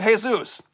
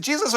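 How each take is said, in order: First: "Jesus" said the Spanish way, hay-ZOOS; Spanish pronunciation. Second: "Jesus" said the English way, JEE-zus; English pronunciation. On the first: Asking how a viewer's name is said, "Jesus" as Spanish hay-ZOOS. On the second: Asking how a viewer's name is said, "Jesus" as English JEE-zus. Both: Shown as a demonstration. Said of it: "is it Jesus or".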